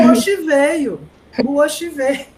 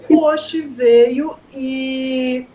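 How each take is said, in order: First: Louder, higher dramatic announcement of O Oxi veio; dramatic exclamation. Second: Slow, louder, stretched O Oxi veio; drawn-out announcement. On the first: Teacher telling class the Oxi arrived, dramatic and loud. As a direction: proclaim it like a big reveal. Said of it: "retelling the Oxi moment". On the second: Teacher replaying the Oxi moment, slow and louder. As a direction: stretch every word for effect. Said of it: "repeating the Oxi line". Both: Retold or imitated.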